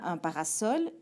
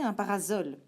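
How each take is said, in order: First: The middle consonant is a hissing s sound. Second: The middle consonant is a buzzing z sound. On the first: This is how the word is really said. The speaker calls it right. "on prononce bien un parasol" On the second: This is what the spelling rule would predict. The speaker calls it wrong. "on devrait donc prononcer un parasol"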